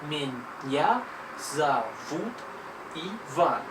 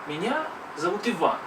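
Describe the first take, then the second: First: It is said slowly, syllable by syllable. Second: It is said at a normal speed. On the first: "we shall read even more slowly. We, we shall read little syllables" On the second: "Just read with me"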